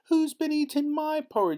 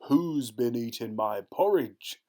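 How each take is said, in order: First: The voice is high and squeaky. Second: The voice is big and gruff. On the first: "in his squeaky little voice" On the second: "in his big gruff voice"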